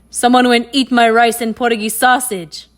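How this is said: It is said in a deep, gruff voice.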